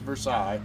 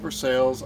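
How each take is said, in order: First: It is said in the French way. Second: It is said in the local Missouri way. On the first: This is the standard pronunciation, which marks you as an outsider there. "the technical pronunciation is Versailles" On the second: This is how the town's residents say it. "they call it Versailles"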